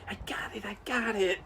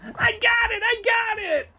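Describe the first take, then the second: First: It is said very quietly. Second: It is yelled loudly.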